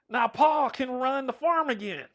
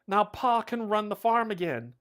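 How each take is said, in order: First: It is read in a put-on country accent. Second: It is read in the speaker's ordinary voice. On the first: The speaker calls it right. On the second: The speaker calls it wrong.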